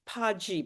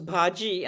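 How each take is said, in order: First: It begins with a plain voiceless 'p' sound. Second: It begins with a breathy voiced 'bh' sound. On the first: The speaker calls it wrong. "I'd been saying pa and no one had corrected me" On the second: The speaker calls it right. "how do you say bh"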